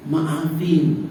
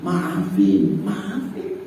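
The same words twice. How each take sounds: First: Said in the usual way. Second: "maafin" said much lower, falling; deep drawn-out maafin. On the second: Shown as a demonstration. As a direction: drop the voice low on "maafin".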